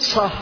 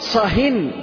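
First: The word ends in a silent consonant, no n. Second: The word ends with an added n sound. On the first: Be quiet about this particular topic between us. "مبني على إيش؟ السكون" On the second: Be quiet about this and any other topic. "هذا تنوين إيش؟ تنكير"

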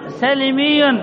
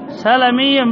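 First: The middle consonant l carries the vowel i. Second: The middle consonant l carries the vowel a. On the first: The speaker calls it wrong. "الخطأ سلمي" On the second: The speaker calls it right. "سلمي بفتح المي بفتح اللام"

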